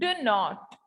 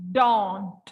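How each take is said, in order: First: Two separate full words are said. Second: It is said as one contracted syllable. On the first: "the first one is do not" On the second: "So the contracted version is don't"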